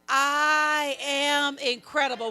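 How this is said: It is said with strong, emphatic conviction.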